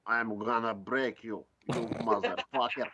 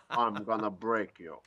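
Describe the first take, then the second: First: Hard Russian accent. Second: Lightly played Russian threat; Russian accent. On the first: Shown as a demonstration. Driver showing hosts his gangster act, hard Russian accent. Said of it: "a really hard one". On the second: Driver joking about threatening his rival, mild Russian accent. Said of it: "Kristaps doing a Russian accent".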